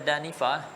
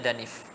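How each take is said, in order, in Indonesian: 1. Kata ini berakhir dengan bunyi vokal akhir. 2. Kata ini berhenti pada konsonan akhir yang polos. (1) "Kalau selain daripada Rabi'ah, dia akan baca danifah" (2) "Dia baca danif"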